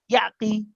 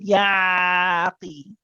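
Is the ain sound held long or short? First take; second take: short; long. First: The ain sound is clipped very short. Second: The ain sound is held too long. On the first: "you don't quicken, you don't make it very short" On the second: "You don't make it too long"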